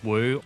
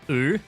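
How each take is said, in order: First: It is said the familiar older English way. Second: It is said the Chinese-style way.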